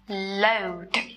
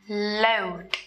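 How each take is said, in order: Both takes have the same delivery.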